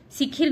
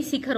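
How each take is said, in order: First: शिखिर ending in -khir; two i sounds in शिखिर; wrong form. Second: Short a after ख in शिखर; correct form. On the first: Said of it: "शिखिर नहीं". (गलत उच्चारण, शिखिर) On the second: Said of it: "शिखर होता है". (सही उच्चारण, शिखर) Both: Shown as a demonstration.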